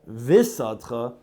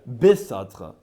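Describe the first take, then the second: First: The word begins with a soft v sound. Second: The word begins with a hard b sound. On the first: The speaker calls it wrong. "don't say visadcha" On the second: The speaker calls it right. "bi is a duggish"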